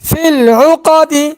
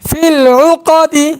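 The two takes are said the same way.

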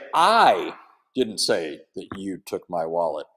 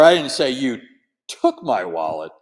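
First: The stress is on the word I. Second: The stress is on the word took.

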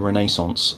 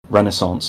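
First: The word is said the British way. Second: The word is said the American way.

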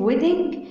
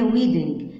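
First: The first vowel is a short e sound. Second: The first vowel is a long ee sound. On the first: The speaker calls it right. "حفل زفاف ودانج" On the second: The speaker calls it wrong. "في ناس بتنطق حفل زفاف ان هي ويدنج. لا"

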